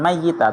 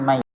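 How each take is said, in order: First: The y sound is doubled and held longer. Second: The y sound is single and short. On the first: The speaker calls it wrong. "bukan mayita" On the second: The speaker calls it right. "dengan dibaca tahfif, maita"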